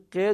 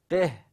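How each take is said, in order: First: The word ends abruptly on the short vowel. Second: The word ends with a soft breathy h. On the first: The speaker calls it wrong. "ق درست نیست" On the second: The speaker calls it right. "بگو قه، قه، اینطوری بگو"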